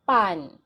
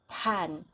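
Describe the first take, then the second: First: The p has no puff of air. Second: The p has a strong puff of air. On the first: The speaker calls it right. "the P here is not aspirated" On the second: The speaker calls it wrong. "the pronunciation should not be pan"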